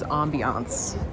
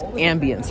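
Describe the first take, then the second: First: The word is given a French pronunciation. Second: The word is given an English pronunciation. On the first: "the French way of pronouncing it" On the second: "in English it's"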